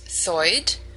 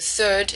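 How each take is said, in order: First: The vowel is an 'oi', New York style. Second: The vowel is a plain 'er' sound.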